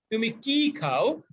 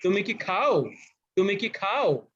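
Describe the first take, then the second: First: Slow, with কি lifted and pressed; teacher demonstrating stress on কি. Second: খাও pressed firmly; teacher demonstrating stress on খাও. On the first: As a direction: hit কি and let খাও fall away. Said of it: "আমি কির উপরে চাপ দেই". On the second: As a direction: put the weight on খাও. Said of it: "খাওকে চাপ দিয়ে জোরালো ভাবে বলি". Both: Shown as a demonstration.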